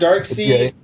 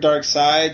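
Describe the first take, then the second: First: The second part rhymes with 'reed'. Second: The second part rhymes with 'ride'. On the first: "I've heard dark seed" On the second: "in the newer stuff I've heard dark side"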